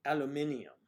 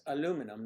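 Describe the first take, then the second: First: "aluminium" as al-yoo-MIN-ee-um; five-syllable British "aluminium"; British pronunciation. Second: "aluminum" as a-LOO-mi-num; four-syllable American "aluminum"; American pronunciation. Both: Shown as a demonstration. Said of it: "not alu".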